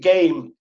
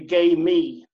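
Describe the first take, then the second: First: It is said as one syllable, game. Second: It is said as two syllables, gay me. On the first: The speaker calls it wrong. "I just pronounced it game" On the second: The speaker calls it right.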